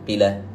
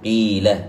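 First: The vowel is cut short. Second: The vowel is drawn out long. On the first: The speaker calls it wrong. "ولم أقل قيل" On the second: The speaker calls it right. "إذن أطلت الصوت بالحرف"

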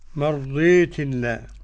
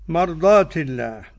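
First: The long vowel leans toward an i sound. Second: The long vowel is an open a sound.

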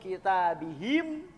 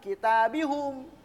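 First: The pronoun suffix is said with an i vowel. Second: The pronoun suffix is said with a u vowel. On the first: This is the majority dialect form. "Ini dialek mayoritas" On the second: This is a minority dialect form. "ada juga yang apapun yang terjadi dia tetap doma"

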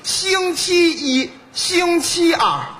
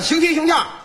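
First: The phrase is said slowly with every syllable. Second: The phrase is said quickly with a syllable dropped.

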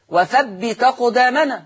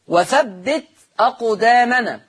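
First: The hamza is dropped; ta takes its fatha. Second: The hamza is pronounced after the ta.

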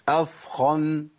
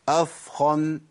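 No difference in how they are said.

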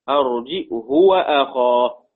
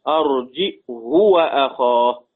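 First: It has a glottal stop and a short u after h. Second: The same.

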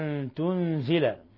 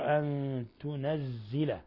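First: The n has no vowel and the z is short. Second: The n takes a vowel and the z is doubled. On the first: "بإسكان النون وتخفيف الزاي مكسورة" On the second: "بفتح النون وتشديد الزاي مكسورة"

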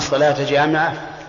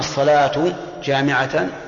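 First: Both words end in the accusative a vowel. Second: The first ends in u, the second in a. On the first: The phrase is the object of an omitted verb. "فالصلاة مفعول لفعل محذوف، وجامعة حال" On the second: The phrase is the predicate of an omitted subject. "فالصلاة خبر مبتدأ محذوف ... وجامعة حال ... هذا الوجه هو أضعفها"

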